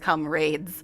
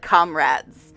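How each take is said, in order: First: The word has a British pronunciation. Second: The word has a non-British pronunciation. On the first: This is how it is said in the game. "the British pronunciation of that" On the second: This is how the speaker has always said it. "I've all my life said comrades"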